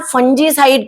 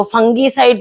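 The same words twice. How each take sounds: First: फंजीसाइड with a "j" sound; "j" in the middle of फंजीसाइड; soft g pronunciation. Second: फंगीसाइड with a hard "g"; hard "g" in the middle of फंगीसाइड; hard g pronunciation. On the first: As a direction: say फंजीसाइड as "fun-jee-side". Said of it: "correct pronunciation जो है वो फंजीसाइड". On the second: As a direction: say फंगीसाइड as "fung-gee-side". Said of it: "कई लोग मुझे बोलते हैं". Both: Shown as a demonstration.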